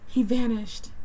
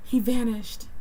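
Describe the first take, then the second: First: It is said in a put-on character voice. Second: The same.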